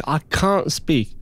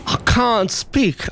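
First: Said in the usual way. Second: Exaggerated whine. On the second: Shown as a demonstration. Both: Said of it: "she's not letting me speak".

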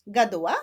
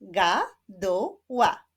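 First: Said in the usual way. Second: "Gaduła" in three slow, separate beats; split into syllables. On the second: Shown as a demonstration. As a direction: clap out "Gaduła" slowly, syllable by syllable. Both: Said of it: "Zapraszam do wyklaskiwania sylab".

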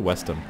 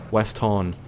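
First: Said in the usual way. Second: "Weston" with a full, open "tawn" ending; altered pronunciation of Weston. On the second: Shown as a demonstration. Gamer playing with the name, "Weston" said as "west-tawn". Distorts the name just read.

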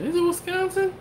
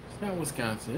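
First: High falsetto mock question; comically high-pitched wondering; incredulous question. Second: Muted, doubtful aside; doubtful guess. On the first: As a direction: squeak it, voice leaping way up. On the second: Acted. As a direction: say it softly to yourself, unconvinced. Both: Debating a guess with himself.

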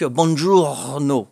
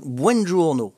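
First: Slow buongiorno with the R after the o; sounding the R. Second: Slow buongiorno, its first part said like bwen; careful buongiorno, the opening said as bwen; corrected buongiorno. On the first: Teaching viewers the Italian hello, slow and careful. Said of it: "faut dire les R". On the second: Trying again after Alexa's answer, slowly correcting himself. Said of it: "Ah, c'est buongiorno". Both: Shown as a demonstration.

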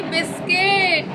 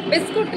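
First: बिस्किट with a high, stretched 'kiṭ' ending; सही उच्चारण. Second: बिस्कुट with a 'kuṭ' ending, high-pitched; गलत उच्चारण. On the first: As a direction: correct it slowly to बिस्किट, 'i' before the final ṭ. (बिस्किट, ऊँचे सुर में 'किट' खींचकर) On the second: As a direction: say बिस्कुट with an 'u' before the final ṭ. (बिस्कुट, ऊँचे सुर में 'कुट' बोलकर) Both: Retold or imitated. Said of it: "video देखा होगा आपने".

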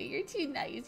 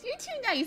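First: Said in the usual way. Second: You're too nice said higher with stress on too; higher pitched. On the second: Shown as a demonstration.

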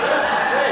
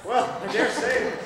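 First: Loud, punched repeat; emphatic reaction. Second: Slow, stretched-out response to innuendo; drawn-out reaction. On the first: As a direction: burst out with it emphatically. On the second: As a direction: stretch it out knowingly. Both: Acted.

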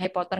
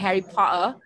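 First: Said in the usual way. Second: Light mock British accent on Harry Potter. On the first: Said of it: "nggak pengen kedengeran kayak Harry Potter". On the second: Teacher showing how she avoids sounding, mock British accent. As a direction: say Potter the British way, without the final r. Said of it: "bisa jadi punya British accent gitu".

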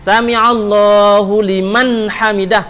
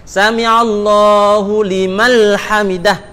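First: 'liman' said slowly with an n; slow recitation ending in 'liman'; correct. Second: 'limal' said slowly with an l; slow recitation ending in 'limal'; wrong Arabic. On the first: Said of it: "Tu hak betul". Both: Shown as a demonstration.

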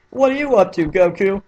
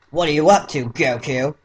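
First: Much higher, cartoony Krillin parody voice; Team Four Star voice. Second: Lightly voiced Krillin, close to own voice; a first, plain try at Krillin; rejected first Krillin voice. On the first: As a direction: pitch it up into an abridged-parody Krillin. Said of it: "Let's do the Team Four Star voice". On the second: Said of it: "Nah, I don't like that voice". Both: Shown as a demonstration.

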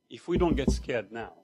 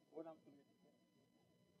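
First: Said in the usual way. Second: Slow, hushed whisper. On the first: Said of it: "applying the punchline". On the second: Real, not acted. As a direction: whisper it as a warning. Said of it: "whispered sermon point".

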